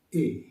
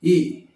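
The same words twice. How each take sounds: First: "এ" lower, lighter, falling; softened vowel. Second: "এ" very loud, as a hard pure vowel; wrong hard vowel. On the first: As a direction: ease "এ" downward. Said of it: "একটু নরম করে". ("এ" নরম, নিচু সুরে) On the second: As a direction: punch out "এ" forcefully. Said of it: "এরকম করে নয়". ("এ" খুব জোরে, শক্ত করে) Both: Shown as a demonstration.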